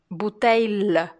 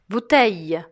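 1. O final tem um som de L bem pronunciado. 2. O final é um deslize curto, parecido com y.

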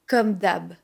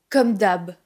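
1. Le dernier mot est raccourci. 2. Le dernier mot est raccourci.

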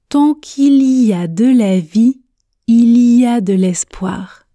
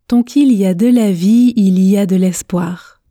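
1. Elle est prononcée très lentement, chaque mot étant bien articulé. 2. Elle est prononcée à un rythme modéré et fluide. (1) "Commençons par la vitesse tortue. Objectif, articulation" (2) "Pratiquons maintenant à une vitesse intermédiaire. Objectif, fluidité"

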